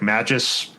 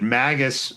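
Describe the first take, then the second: First: The g is soft, like in 'magic'. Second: The g is hard, unlike in 'magic'.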